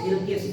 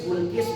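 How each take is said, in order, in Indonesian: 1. Vokal pertama adalah bunyi i depan. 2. Vokal pertama adalah bunyi u bulat. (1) "dikasar semuanya" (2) "bisa disebut Bulkis"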